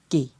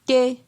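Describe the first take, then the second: First: The syllable is said on a low tone. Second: The syllable is said on a mid tone. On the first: "Et pour un ton bas" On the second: "Ton moyen"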